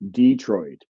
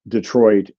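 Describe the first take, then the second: First: The stress is on the first syllable. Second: The stress is on the second syllable. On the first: This is how some southern varieties say it. "where the stress was on the first syllable" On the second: This is how most northern varieties say it. "in most northern varieties"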